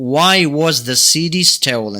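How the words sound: The voice falls at the end. The speaker calls it right. "بەڵام لەوانی تر down"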